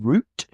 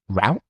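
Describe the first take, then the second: First: It is said in a non-American way. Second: It is said in an American way.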